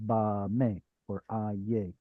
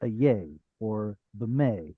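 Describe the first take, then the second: First: Open, full "ah" held in "ba may" and "a yay"; full first vowel. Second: First vowel of "yay" and "may" words cut to a schwa; vowel too short. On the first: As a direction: give "ba" and "a" a full long ah before "may" and "yay". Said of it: "just exaggerate the vowels". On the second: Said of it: "too short, almost like it were a schwa". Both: Shown as a demonstration.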